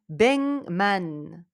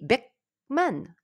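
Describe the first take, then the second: First: The consonant before m becomes a nasal. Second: The consonant before m stays a plain stop. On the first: The speaker calls it right. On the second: The speaker calls it wrong.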